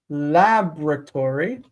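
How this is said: The first syllable is stressed; the O drops. "we wanted to stress it as lab... as if that O were not there"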